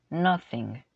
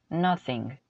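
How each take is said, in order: The two takes are said the same way.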